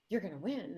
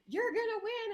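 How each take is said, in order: First: Said in the usual way. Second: High-pitched mock scream of insistence; imitated screaming. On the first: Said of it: "she was hysterical". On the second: Friend insisting to the candidate outside, imitated screaming. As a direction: play the friend squealing it, voice way up. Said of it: "screaming at each other 'cause she's like".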